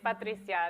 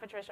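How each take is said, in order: First: The name is pronounced the Spanish way. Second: The name is pronounced the English way. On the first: This is the owner's true name. The speaker calls it right. "this is how you say my name" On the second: This is an anglicized version of the name. The speaker calls it wrong. "it's not Patricia"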